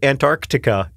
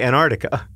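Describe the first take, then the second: First: It is said slowly, every sound clear. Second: It is said quickly, some sounds run together. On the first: "If I don't say Antarctica in slow motion" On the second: "I say Antarctica"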